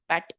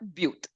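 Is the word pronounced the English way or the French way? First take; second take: English; French. First: The word is pronounced as English 'but'. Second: The word is pronounced as French 'but'. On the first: "which is but in English" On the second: "but that's not but in French. It's le but"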